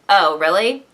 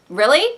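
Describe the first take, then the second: First: It sounds dismissive and arrogant. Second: It sounds interested and engaged.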